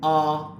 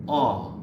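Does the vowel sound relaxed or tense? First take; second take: tense; relaxed. First: The vowel is tense with steady pitch. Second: The vowel is relaxed and loose. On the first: "In Chinese, it's gonna sound ah... Make sure you maintain the kind of pitch" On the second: "in English, it's gonna sound more relaxed"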